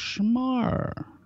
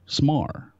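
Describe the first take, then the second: First: The name begins with an sh sound. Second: The name begins with a plain s sound. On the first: The speaker calls it wrong. "I was calling you Schmar for some reason" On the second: The speaker calls it right. "I think it's just Smar"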